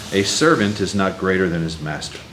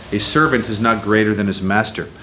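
Both takes have the same delivery.

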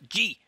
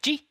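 First: The command is said strongly and emphatically. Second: The command is said softly and lightly. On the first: Turn sharply. "and they'll actually swing harder" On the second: Turn only slightly. "just G. They might just turn a few degrees to the right"

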